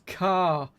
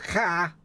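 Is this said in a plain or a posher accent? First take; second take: posher; plain. First: It is said in a more refined accent. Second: It is said in his everyday regional accent. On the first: The speaker calls it right. "it's car" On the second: The speaker calls it wrong. "Not car"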